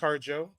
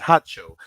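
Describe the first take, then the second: First: The name is said as Harjo. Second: The name is said as Hacho. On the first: The speaker calls it wrong. "it's not pronounced Harjo" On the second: The speaker calls it right. "The correct pronunciation is Hacho"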